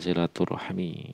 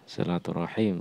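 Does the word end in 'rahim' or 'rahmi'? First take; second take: rahmi; rahim. First: The word ends with the syllables rah-mi. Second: The word ends with the syllables ra-him. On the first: It means connecting wombs. The speaker calls it wrong. "bukan silaturahmi" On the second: It means keeping family ties. The speaker calls it right. "Silaturahim kalau di sini"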